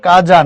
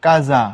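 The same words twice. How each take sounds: First: কাজা said "kaja", with a pressed j; wrong j sound. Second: কাজা said "kaza", with a buzzing z; correct z sound. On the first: Teacher showing what not to say, কাজা with j. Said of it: "বর্গীয় জ দিয়ে এটার উচ্চারণ হয় না". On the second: Teacher giving the correct pronunciation, কাজা with z. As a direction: let the middle of কাজা buzz as z. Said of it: "এটার উচ্চারণ হলো কাজা". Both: Shown as a demonstration.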